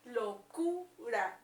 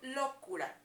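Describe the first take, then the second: First: The stress is on the middle syllable. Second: The stress is on the first syllable. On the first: The speaker calls it right. "se escucha en la sílaba del medio, en Q ... Locura, entonces es aquí" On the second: The speaker calls it wrong. "Si creemos que está en la O, locura. Lo, enfaticemos el sonido"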